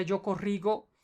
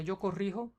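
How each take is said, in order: First: Corrigo with a hard g, as in go. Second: Corrijo with a throaty Spanish j, like h; J sound. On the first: Tutor showing the wrong form to a learner, hard g in corrigo. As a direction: say corrigo with a hard g sound in the last syllable. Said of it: "porque se pone J, en la G sería". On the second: Tutor showing the right form to a learner, j sound in corrijo. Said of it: "cambia la J en vez que la G". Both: Shown as a demonstration.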